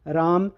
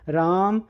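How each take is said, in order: The two takes are said the same way.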